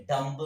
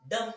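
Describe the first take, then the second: First: "डम्ब" with the final b sounded; "डम्ब", silent b wrongly voiced; wrong pronunciation. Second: "डम" ending on m, no b; "डम" with the b left silent. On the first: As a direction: say "डम्ब" ending on an audible b. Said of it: "बिल्कुल गलत हो जाएगा". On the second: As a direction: say "डम", closing the lips on m. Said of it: "हम लोग क्या पढ़ेंगे इसको". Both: Shown as a demonstration.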